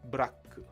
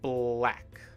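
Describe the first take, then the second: First: Vowels are inserted between and after the consonants. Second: The consonants are joined with no added vowels. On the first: The speaker calls it wrong. "we don't want the bu sound at the beginning" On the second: The speaker calls it right. "we want bl, not bu"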